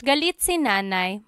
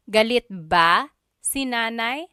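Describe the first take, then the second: First: "Galit si nanay" in an even statement tune. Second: "Galit ba si nanay" rising on "nanay"; question tune. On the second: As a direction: ask "Galit ba si nanay" with a lifted ending. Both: Shown as a demonstration. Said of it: "change the statement into a question".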